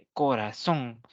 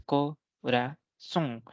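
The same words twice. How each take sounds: First: Said in the usual way. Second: "corazón" slowly split into co, ra, zón; "corazón" in three slow, separated beats; syllable by syllable. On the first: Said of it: "la última tiene tres sílabas". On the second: Shown as a demonstration. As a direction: count out the syllables of "corazón" with gaps. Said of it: "tiene tres sílabas".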